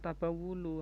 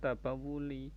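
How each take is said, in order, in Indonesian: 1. Kata itu berakhir dengan vokal 'u'. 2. Kata itu berakhir dengan vokal 'i'. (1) "karena tabawulu" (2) "harusnya tabawuli"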